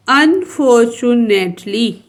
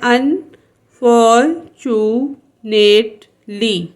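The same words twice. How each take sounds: First: Said in the usual way. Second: unfortunately very slowly in five beats, "अन, फॉर, चु, नेट, ली"; split into syllables. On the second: Shown as a demonstration. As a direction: pause after each syllable of unfortunately. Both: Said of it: "ये five syllable word है".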